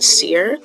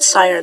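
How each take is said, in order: First: The word is said like 'seer'. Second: The word is said like 'sire'. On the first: The speaker calls it wrong. "I've been pronouncing it seer this entire time" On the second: The speaker calls it right. "I pronounced it sire that one time"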